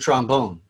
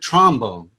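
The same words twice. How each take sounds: First: The stress is on the second syllable. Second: The stress is on the first syllable. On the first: This is the way it is not said in New Orleans. "you don't play the trombone" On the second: This is the way it is said in New Orleans. "There's a first syllable emphasis on these"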